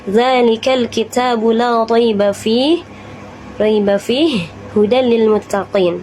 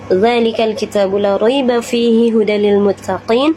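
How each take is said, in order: First: It stops after 'fih' and then resumes. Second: It runs straight through without stopping. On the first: "Boleh juga berhenti di salah satu tanda waqaf" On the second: "Boleh langsung"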